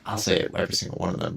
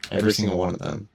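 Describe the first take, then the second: First: "every single one of them" rushed fast and offhand; quick hedge. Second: "Every" stressed with a rise; emphatic. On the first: Hedging fast to viewers about fake Reddit stories. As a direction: toss it off quickly, backing down. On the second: Stressing "Every" to the viewers about fake stories. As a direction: lean hard on "Every" as a sweeping claim. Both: Real, not acted.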